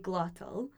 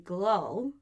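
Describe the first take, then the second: First: The middle consonant is a clear t sound. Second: The middle consonant is a glottal stop. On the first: The speaker is talking formally. "if I'm speaking more kind of properly and formally" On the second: The speaker is talking casually. "if I was to drop my T's"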